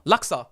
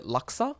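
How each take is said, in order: First: "Laksa." said firmly, louder and falling; sure statement. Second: "Laksa?" asked with a rising, unsure tune; unsure question. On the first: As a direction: land "Laksa." as the answer. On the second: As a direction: try the name "Laksa?" like a guess. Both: Shown as a demonstration. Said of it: "Something laksa".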